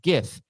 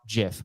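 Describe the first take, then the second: First: The word begins with a hard G sound. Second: The word begins with a J sound. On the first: The speaker calls it right. "pronounced with a hard G sound. Hence, GIF" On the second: The speaker calls it wrong. "and not GIF"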